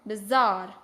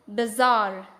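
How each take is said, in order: The two takes are said the same way.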